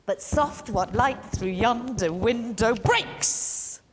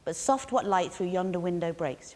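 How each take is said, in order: First: Gallop the line with every second syllable punched; galloped iambic rhythm. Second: Said in the usual way. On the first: Shown as a demonstration. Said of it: "we're gonna gallop it". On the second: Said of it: "with that rhythm really strongly".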